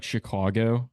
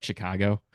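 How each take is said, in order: First: Chicago with a rounded AW in the middle; usual pronunciation. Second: Chicago with a flat, open A in the middle; own regional pronunciation. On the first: Chicagoan showing how most people say it, usual pronunciation. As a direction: say Chicago the common way, "Shi-CAW-go". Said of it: "a lot of people say". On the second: Chicagoan showing his own vowel, regional pronunciation. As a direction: say Chicago his way, "Shi-CAH-go". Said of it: "but I'll say, like". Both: Shown as a demonstration.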